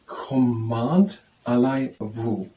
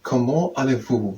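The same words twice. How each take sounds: First: "comment allez-vous" very slowly, read as English with a sounded T. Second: Said in the usual way. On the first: Shown as a demonstration. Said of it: "as someone should read it in English". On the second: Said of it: "what I would say".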